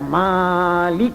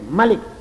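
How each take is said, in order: First: The first vowel is held long. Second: The first vowel is kept short. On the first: It means the one who owns. "Mim dengan panjang harus dibaca" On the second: It means king. "dengan pendek mim"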